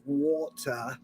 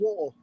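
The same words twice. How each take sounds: First: Slow, careful posh "water" with the t crisply sounded. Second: Quick, relaxed "water" with the t dropped, as among mates; casual mates water. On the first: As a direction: say "water" slowly and primly, like a posh Brit. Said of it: "If I want to sound more posh". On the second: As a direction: toss off "water" loosely, like chatting at the pub. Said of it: "when I'm hanging out with my mates". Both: Shown as a demonstration.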